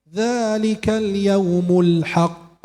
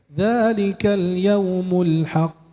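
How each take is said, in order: First: The final q is pressed and bounced heavily. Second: The final q is bounced lightly and naturally. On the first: The speaker calls it wrong. "luar biasa sampai menekan gitu ya" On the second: The speaker calls it right. "Qalqalahnya biasa aja"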